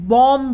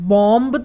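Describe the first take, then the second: First: The final b sound is silent. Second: The final b sound is pronounced. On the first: The speaker calls it right. "हम क्या बोलते हैं? बॉम्ब बोलते हैं।" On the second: The speaker calls it wrong. "हम बॉम्ब तो नहीं बोलते"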